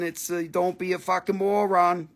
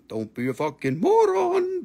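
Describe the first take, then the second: First: Said in the usual way. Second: "Don't be a fucking moron." repeated much higher, mock scolding. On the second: Shown as a demonstration. Seller teasing buyers, repeating "Don't be a fucking moron." in a high mock voice.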